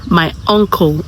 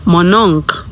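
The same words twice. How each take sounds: First: Said in the usual way. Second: "mon oncle" as "mon-onk"; French "mon oncle" as against English "my uncle"; French pronunciation. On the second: Shown as a demonstration. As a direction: run "mon oncle" together and drop the l. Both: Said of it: "how do you say uncle".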